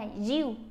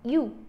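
First: The initial y sound is too strong. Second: The initial y sound is too weak. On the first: "một bên thì nặng quá" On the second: "một bên thì nhẹ quá"

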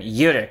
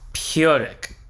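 First: The word begins without a P sound. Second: The word begins with a P sound. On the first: The speaker calls it right. "because in my mind the P is silent" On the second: The speaker calls it wrong. "I definitely said that wrong"

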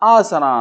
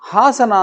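First: The word begins directly with a vowel. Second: The word begins with an h sound. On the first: The speaker calls it wrong. "ಆಸನ ಅಂತಾನೆ" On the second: The speaker calls it right. "ಹಾಸನ ಅಂತಿರೋದನ್ನು"

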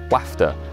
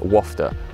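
First: It is said with a northern English pronunciation. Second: It is said with a southern English pronunciation.

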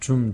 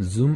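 First: The word begins with a Korean 'j' sound. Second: The word begins with a buzzing 'z' sound. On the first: The speaker calls it wrong. "그냥 줌 이렇게 하는데" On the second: The speaker calls it right. "사실은 z 발음이에요"

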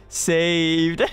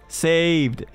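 Both takes have the same delivery.

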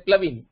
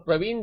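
First: The name has an L sound after the P. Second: The name has an R sound after the P. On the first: The speaker calls it wrong. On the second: The speaker calls it right.

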